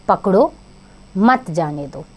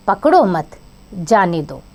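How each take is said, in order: First: "पकड़ो" alone, pause, then "मत जाने दो" together; pause after पकड़ो. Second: "पकड़ो मत" as one unit, pause, then "जाने दो"; pause after मत. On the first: Teacher showing children how comma position changes meaning, pause after पकड़ो. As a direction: break after पकड़ो, running मत straight into जाने दो. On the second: Teacher showing children how comma position changes meaning, pause after मत. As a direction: break after मत, keeping it joined to पकड़ो. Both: Shown as a demonstration. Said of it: "उनके स्थान परिवर्तन से वाक्यों का अर्थ बदल गया".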